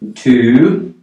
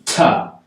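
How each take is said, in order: First: The word is said fully with a clear vowel. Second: The word is reduced with a weak schwa vowel.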